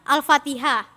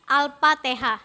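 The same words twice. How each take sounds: First: The word is pronounced in the standard way. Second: The word is pronounced with an altered sound. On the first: The speaker calls it right. "tidak bisa mengucapkan kalimat Al-Fatihah" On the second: The speaker calls it wrong. "Dia bisanya"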